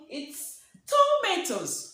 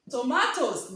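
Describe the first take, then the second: First: "tomatoes" as tu-MAY-tos, raised and sung out; teacher models the right way: "tomatoes" with a long ay vowel; correct pronunciation. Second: "tomatoes" said to-MA-tos, with an open a like father; the mistaken local "tomatoes", rhymed with "potatoes" the Nigerian way, a as in father; teacher demos the wrong way: "tomatoes" as to-MA-tos; wrong pronunciation. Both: Shown as a demonstration. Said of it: "No, no, no".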